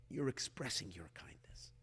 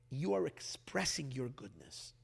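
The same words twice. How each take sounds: First: Soft unvoiced whisper. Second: Said in the usual way. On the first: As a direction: breathe the words out as a hushed aside. Repeats line, then whispers variant.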